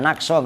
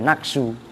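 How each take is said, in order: First: The word ends with an 'a' vowel. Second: The word ends with a 'u' vowel. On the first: The word is an exception after illa. The speaker calls it right. "itu harus dibaca nakso" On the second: The word is a substitute, making the meaning contradictory. The speaker calls it wrong. "nggak boleh naksu"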